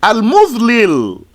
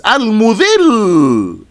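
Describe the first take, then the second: First: "Al-Mudlil" with an l on each side of the last vowel; unmerged lams. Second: "Al-Mudhil" with one long held final l; merged lams. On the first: Teacher repeating the original pattern, "Al-Mudlil" with two separate lams. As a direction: sound both l's apart in "Al-Mudlil". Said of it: "the two lambs". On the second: Teacher showing what it becomes, "Al-Mudhil" with the lams joined. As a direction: hold the l at the end of "Al-Mudhil". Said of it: "put the two lambs together". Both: Shown as a demonstration.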